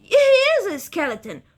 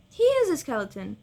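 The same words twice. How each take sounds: First: High, loud outraged cry; indignant shout. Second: Said in the usual way. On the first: Real, not acted. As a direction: yell it in disbelief. Outraged at game bestiary.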